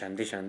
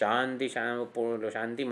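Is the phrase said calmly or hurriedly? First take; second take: hurriedly; calmly. First: It is said quickly and agitatedly. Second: It is said slowly and calmly. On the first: The speaker calls it wrong. "એવું નહીં, થોડુંક એજિટેટેડ નહીં" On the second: The speaker calls it right. "આમ"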